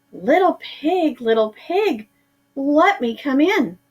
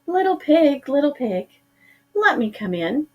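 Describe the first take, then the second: First: A touch of irritation creeping in; disguised shark losing patience at the locked door; growing upset. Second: High, sing-song sweet call; calling sweetly. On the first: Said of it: "growing upset". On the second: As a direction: coax the pig like a friendly seller. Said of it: "called sweetly". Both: A narrator's reading.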